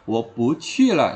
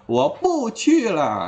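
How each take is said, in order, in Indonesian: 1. Kata 'bu' bernada naik. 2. Kata 'bu' bernada turun.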